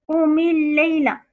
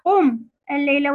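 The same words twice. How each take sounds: First: "قم الليلة" linked, with an i after the م of قم; linking kasra. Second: "قم الليلة" split, قم closed on a vowelless م; original sukun. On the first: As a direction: say "قم الليلة" as one phrase, qumi-l-layla. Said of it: "ولكن لالتقاء الساكنين كسرت". («قم الليلة» موصولة بكسر ميم قم) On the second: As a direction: stop on qum, then start al-layla afresh. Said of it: "أصلها". («قم الليلة» بسكون ميم قم وفصلها عن الليلة) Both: Shown as a demonstration.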